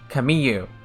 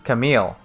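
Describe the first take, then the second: First: The name is said with a y sound. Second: The name is said without a y sound.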